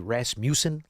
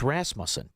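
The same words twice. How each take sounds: First: The name is said to sound like Rasputin. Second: The name is said the standard way. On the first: "should be Rasmussen, like Rasputin" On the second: "My honey bunny corrected me. It's Rasmussen"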